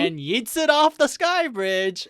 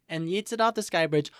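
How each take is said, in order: First: Loud, high, drawn-out exclamation; hyped retelling. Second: Said in the usual way. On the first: Retold or imitated. Recapping the dramatic throw for co-host, hyped. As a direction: stretch it out big, high and loud.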